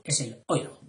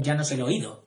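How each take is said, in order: First: "oído" in three syllables, o-Í-do, stress on the í; correct stress. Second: "oído" squeezed into two syllables, OI-do, no stress on the í; accent dropped. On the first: Teacher correcting the word for viewers, "oído" as o-Í-do. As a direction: give "oído" its full accent on the í. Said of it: "Perdón, ya no es el oído". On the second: Teacher demonstrating the wrong way to viewers, "oído" said as OI-do. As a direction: swallow the accent so "oído" becomes OI-do. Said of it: "si te comes el acento". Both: Shown as a demonstration.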